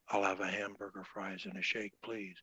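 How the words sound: It is said in a soft voice.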